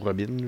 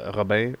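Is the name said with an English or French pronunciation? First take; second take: English; French. First: The name is said with an English pronunciation. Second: The name is said with a French pronunciation.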